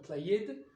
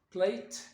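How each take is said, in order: First: The word ends with a d sound. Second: The word ends with a t sound. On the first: "soit de" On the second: "soit t"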